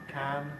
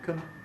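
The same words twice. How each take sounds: First: The word has a full vowel. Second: The word has a reduced vowel. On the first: "a strong form" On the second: "a weak form"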